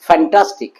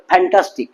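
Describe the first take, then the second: First: "ফ্যান্টাস্টিক" starting on a true English f; open-lipped f. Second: "fantastic" begun with an aspirated p, phantastic; lips closed p-h. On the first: Teacher giving the correct F to students, open-lipped f. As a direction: lips apart for the f in "ফ্যান্টাস্টিক". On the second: Teacher showing the wrong F, lips closed. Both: Shown as a demonstration. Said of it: "ঠোঁট লেগে হবে না".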